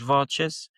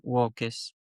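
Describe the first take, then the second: First: It uses the ecclesiastical Latin pronunciation. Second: It uses the restored classical Latin pronunciation. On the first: "com pronúncia eclesiástica dizemos" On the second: "com pronúncia restaurada dizemos"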